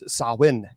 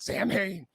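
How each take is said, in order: First: It is said the traditional way. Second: It is said the common movie way. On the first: The speaker calls it right. "it's Samhain. That is actually how you say" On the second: The speaker calls it wrong. "it's not Samhain"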